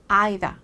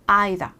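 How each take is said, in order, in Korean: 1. 영국식 억양으로 말한 거예요. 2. 영국식 억양으로 말한 거예요.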